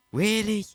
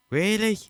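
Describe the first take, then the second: No difference in how they are said.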